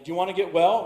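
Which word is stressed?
well. The stress falls on the word well.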